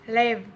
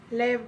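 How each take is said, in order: Both takes have the same delivery.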